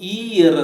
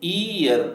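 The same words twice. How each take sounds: First: It begins with a consonant y sound. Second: It begins with a plain vowel sound. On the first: The speaker calls it right. "ಅದನ್ನು ಇಯರ್ ಅಂತ ಹೇಳೋದು" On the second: The speaker calls it wrong. "ಇಯರ್ ಅಲ್ಲ ಅದು"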